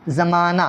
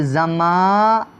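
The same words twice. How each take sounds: First: زمانہ in one piece, ending on aa; silent final h. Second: زمانہ slowly as za-maaa, pause, naa; broken into syllables. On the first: Teacher shows only aa is heard, silent final h. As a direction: say زمانہ whole, no h at the end. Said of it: "اکار آتا ہے". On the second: Teacher shows the written ha is unheard, syllable by syllable. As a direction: stretch the middle of زمانہ, end without h. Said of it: "ہا آتا ہے". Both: Shown as a demonstration.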